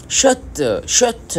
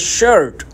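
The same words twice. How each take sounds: First: शर्ट said as shat, much higher with the r dropped; Korean accent. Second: शर्ट said the English way as shirt with the r; plain English शर्ट; English pronunciation. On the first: Teacher contrasting Korean शर्ट with the English word, Korean accent. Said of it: "इस तरह बोलते हैं". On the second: Teacher giving the English शर्ट first, English pronunciation. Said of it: "बिल्कुल English तलफ़ुज़ में कहते हैं शर्ट". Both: Shown as a demonstration.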